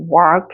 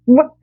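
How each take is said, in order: First: The vowel is long, deep and drawn out. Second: The vowel is short and sharply clipped. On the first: The speaker calls it wrong. "깊이 뭔가 이렇게 많이 넓게 찍어주는 것이 아니라" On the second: The speaker calls it right. "짧게 찍는 연습을 자꾸 해주세요"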